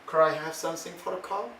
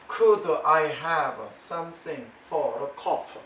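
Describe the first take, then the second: First: The words run together in native American style. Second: Each word is said separately, Korean-learner style. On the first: "미국 사람이 입으로 발성을 하고 말소리를 낼 때는" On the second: "이런 소리가 우리에게는 익숙하다는 것입니다"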